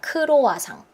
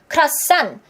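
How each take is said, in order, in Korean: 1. 네 음절로 고르게 발음해요. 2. 두 음절이고, 뒤쪽에 강세를 둬요. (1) "이음절짜리를 지금 사음절로 하고 있으니까" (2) "강세가 뒤에 있는 이음절이에요"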